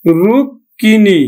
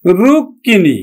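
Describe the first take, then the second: First: রুক্মিণী drawn out as "rukkini"; রুক্মিণী said slowly with a doubled k; slow pronunciation demo. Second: রুক্মিণী said at normal speed as "rukkini"; রুক্মিণী in one go, "rukini"; pronunciation demo. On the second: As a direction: say রুক্মিণী quickly with a doubled k. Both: Shown as a demonstration. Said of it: "ক দুইবার উচ্চারিত হবে".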